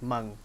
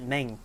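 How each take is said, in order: First: The vowel sounds like the 'u' in 'hung'. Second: The vowel sounds like the 'e' in 'bed'. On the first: "But she said it like Mung, so I'll also say Mung" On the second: "I've been saying it Meng because I don't know how to pronounce it"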